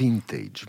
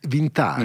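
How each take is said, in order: First: It is pronounced the English way. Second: It is pronounced the French way.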